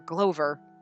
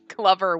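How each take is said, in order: First: The o sounds like the vowel in go. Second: The o sounds like the vowel in love. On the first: The speaker calls it wrong. "I'm reading it like it would have been a Japanese" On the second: The speaker calls it right. "Glover would be the normal English pronunciation"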